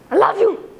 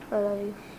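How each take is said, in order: First: It is said in an angry tone. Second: It is said in an uninterested tone.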